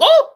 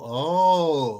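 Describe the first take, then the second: First: The exclamation is short and sharp. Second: The exclamation is drawn out slowly.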